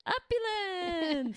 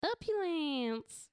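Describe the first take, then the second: First: "Opulence" drawn out slowly, voice changed; slow dramatic quote. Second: "Opulence" drawn out slowly, falling; slow dramatic quote. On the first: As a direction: intone "Opulence" slowly with a put-on voice. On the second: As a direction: intone "Opulence" slowly and grandly. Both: Retold or imitated.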